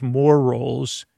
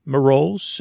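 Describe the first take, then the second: First: Said in the usual way. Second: Mar rolls, said with "more" squashed into "mar"; Mar rolls, slurred. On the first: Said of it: "instead of". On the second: Shown as a demonstration. Host demoing the fair-vendor pun to listeners, "Mar rolls" blurred into one word. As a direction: Mar rolls, run together like "marole". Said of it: "you say".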